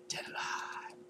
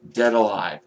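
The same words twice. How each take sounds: First: Breathy whispered repeat of the title. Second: The title called out louder; announcing the title. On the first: Vlogger savouring his favourite film's name, reverent whisper. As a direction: whisper it back in awe. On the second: Vlogger naming his top gore film, punchy announcement. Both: Real, not acted.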